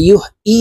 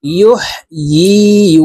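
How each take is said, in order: First: ইউহয়ী said with a bare glottal-onset "ee" after yuh; hamza for ya. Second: Chanted ইউহয়ী with a clear y, yuh-yee. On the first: Teacher quoting a common mistake, ইউহয়ী as yuh-'ee. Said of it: "ইয়ার উচ্চারণ হামজার উচ্চারণ করে থাকি". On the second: Teacher showing the correct ya, ইউহয়ী as drawn-out yuh-yee. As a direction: glide ইউহয়ী from mid-tongue into a long yee. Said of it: "ইয়ার উচ্চারণ জিহ্বার মধ্যখান থেকে করতে হবে". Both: Shown as a demonstration.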